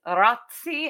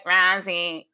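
First: Rozzi said ROT-see, with a crisp ts; original Italian pronunciation. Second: Rozzi said RAZ-ee, with a plain z; lazy pronunciation. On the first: Explaining what the surname once was, original pronunciation. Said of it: "we just got lazy". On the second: Explaining how the family got lazy, lazy pronunciation. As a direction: let Rozzi slacken into a z, no t. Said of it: "we just got lazy and then we're like". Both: Shown as a demonstration.

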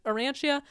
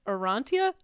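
First: Arantia with an "an-chee-uh" ending, questioning; alternative pronunciation. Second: Arantia with an "ahn-tee-uh" ending, questioning; unsure pronunciation. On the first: Host second-guessing the book title, unsure, Arantia as "uh-RAN-chee-uh". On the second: Host reading out the book title, unsure, Arantia as "uh-RAHN-tee-uh". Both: Shown as a demonstration. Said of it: "I don't know how to pronounce it".

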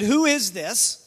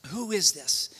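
First: Said in the usual way. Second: Hushed, reflective question. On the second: Retold or imitated. Preacher repeating the disciples' question to the congregation, hushed. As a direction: lower and softer.

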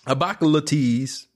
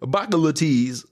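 First: Put-on high, heavy Baltimore accent again repeated; mock Baltimore accent. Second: Put-on high, heavy Baltimore accent; exaggerated Baltimore accent; mock Baltimore accent. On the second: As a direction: imitate the Baltimore way of talking. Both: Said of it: "Baltimore people talk".

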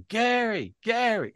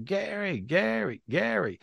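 First: Retold real voice calling. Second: High calling cry of Gary, Gary, Gary; retold spirit screaming name. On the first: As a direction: cry Gary, Gary way up high as he comes back. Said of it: "with his real voice". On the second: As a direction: call Gary, Gary, Gary pitched up like a distant cry. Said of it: "he was screaming my name".

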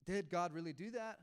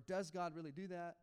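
First: "Did" leaned on at the start; stress on Did. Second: "does" leaned on as the contrast; stress on does. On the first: Pastor voicing believers' doubts, stress on "Did". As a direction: put the weight on "Did", questioning the past. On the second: Pastor voicing believers' doubts, stress on "does". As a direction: put the weight on "does", questioning in general. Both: Acted.

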